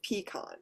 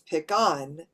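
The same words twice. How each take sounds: First: It uses the Midwestern regional pronunciation. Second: It uses the Southern regional pronunciation. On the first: "Midwest is pecan" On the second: "In the South, it's pecan"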